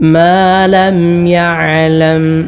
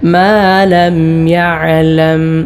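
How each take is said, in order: No difference in how they are said.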